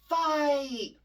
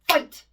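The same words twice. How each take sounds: First: The word is slow and dragged out. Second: The word is quick and snappy.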